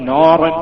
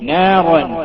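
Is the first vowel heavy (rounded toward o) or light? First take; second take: heavy; light. First: The first vowel is heavy, rounded toward o. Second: The first vowel is light, a clear open a. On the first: The speaker calls it wrong. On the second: The speaker calls it right.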